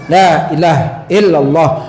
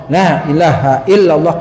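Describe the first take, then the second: No difference in how they are said.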